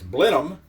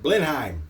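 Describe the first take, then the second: First: The name is pronounced the way the castle is. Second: The name is pronounced the way it is spelled. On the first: The speaker calls it right. "according to my research, it's Blenheim after the castle" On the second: The speaker calls it wrong. "I was pronouncing it Blenheim because that's, you know, kind of how it's spelled"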